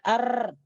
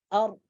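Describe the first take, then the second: First: The r has a full, strong rolling trill. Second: The r has a faint, light vibration. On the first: The speaker calls it wrong. "Bukan ar ... Ini adalah getaran yang sempurna" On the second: The speaker calls it right. "getaran yang samar"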